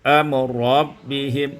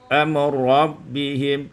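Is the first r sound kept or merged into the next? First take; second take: merged; merged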